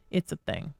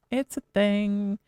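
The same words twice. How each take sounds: First: Said in the usual way. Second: Slow "It's a thing", leaning on "It's"; stressed, slowed. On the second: Shown as a demonstration.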